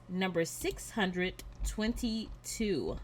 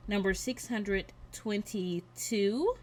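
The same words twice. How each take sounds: The two takes are said the same way.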